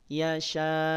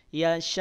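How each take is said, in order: First: The final sound fades away slowly. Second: The final sound stops off sharply. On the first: The speaker calls it wrong. "tidak yasha" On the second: The speaker calls it right. "langsung direm bacanya, langsung berhenti, putus suaranya"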